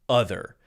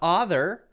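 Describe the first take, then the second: First: The first vowel is a short u sound. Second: The first vowel is an o sound. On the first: The speaker calls it right. "it's clearly a short U sound" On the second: The speaker calls it wrong. "It's not other"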